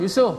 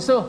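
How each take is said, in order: First: The first vowel is kept short. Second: The same.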